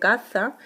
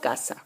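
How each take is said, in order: First: The middle consonant is a th sound. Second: The middle consonant is an s sound. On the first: "de ceceo" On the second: "de seseo"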